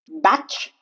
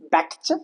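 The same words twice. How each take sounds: First: The T is silent. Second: The T is pronounced. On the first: The speaker calls it right. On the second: The speaker calls it wrong.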